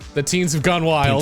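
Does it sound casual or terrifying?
casual. It is said in a casual, ordinary tone.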